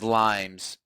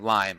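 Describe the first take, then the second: First: The word ends with an added s sound. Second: The word ends without any added s sound. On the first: The speaker calls it wrong. "I always pronounce it plural" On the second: The speaker calls it right. "or Lyme"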